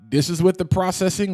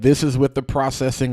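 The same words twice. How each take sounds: First: The voice has audio processing applied. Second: The voice has no audio processing applied. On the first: "this is with the processing on" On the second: "And this is with the processing off"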